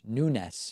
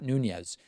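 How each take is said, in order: First: The name ends with a soft s sound. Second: The name ends with a buzzing z sound. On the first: The speaker calls it right. "Nunes, not Nunez" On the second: The speaker calls it wrong. "not Nunez"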